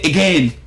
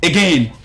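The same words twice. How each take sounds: No difference in how they are said.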